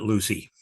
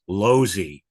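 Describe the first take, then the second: First: The name sounds like Lucy. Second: The name sounds like Losey. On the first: The speaker calls it wrong. "not Lucy" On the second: The speaker calls it right. "Ralph pronounces his last name Losey"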